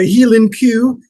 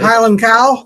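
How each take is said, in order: First: It is said in a Scottish accent. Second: It is said in a plain, non-Scottish accent.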